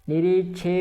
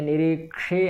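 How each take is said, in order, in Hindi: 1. बीच का व्यंजन सादा 'ch' ध्वनि है। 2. बीच का व्यंजन 'ksh' संयुक्त ध्वनि है। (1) "यहाँ निरीक्षे ऐसा नहीं है" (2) "निरीक्षे ऐसा है, क्योंकि यहाँ क्षा है"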